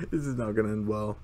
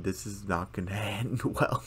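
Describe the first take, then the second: First: Lightly voiced ominous warning; a hint of a different voice; Gloria voice. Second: Chuckling through the line; laughing. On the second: Retold or imitated. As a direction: laugh while quoting. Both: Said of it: "this look from Gloria saying".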